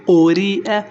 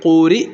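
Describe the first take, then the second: First: قوری اے said with the اے ending sounded; with the hamza. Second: قوری cut short at the pause, hamza dropped; pausal form. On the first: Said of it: "حمزہ پڑھ لینا، یا تو ویسے آپ نے حذف". (حمزہ کے ساتھ قوری اے) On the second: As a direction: stop on قوری without the ending. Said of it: "وقف،". (وقف پر قوری، حمزہ حذف) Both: Shown as a demonstration.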